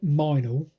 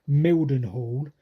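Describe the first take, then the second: First: The name is squeezed into two short syllables. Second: The name is said with all its syllables. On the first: This is how local people say it. "apparently all the yokels pronounce it Minal" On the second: This is how it reads on a map. "you look at a map and you pronounce it Mildenhall"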